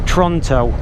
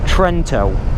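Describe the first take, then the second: First: The first vowel sounds like an O. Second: The first vowel sounds like an E. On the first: The speaker calls it wrong. "I thought it was pronounced Tronto with the E that's like an O" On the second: The speaker calls it right. "it is pronounced Trento"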